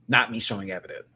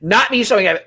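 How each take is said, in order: First: Said in the usual way. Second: Higher and louder, "Not" punched through laughter; laughing. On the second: Real, not acted. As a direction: burst out cracking up at yourself.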